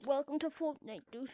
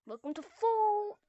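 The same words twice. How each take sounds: First: Said in the usual way. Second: Higher, stretched-out catchphrase; announcer flourish. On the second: Pretend. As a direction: lift and hold the last syllable.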